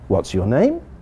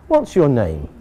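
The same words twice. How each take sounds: First: The voice rises at the end. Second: The voice falls at the end.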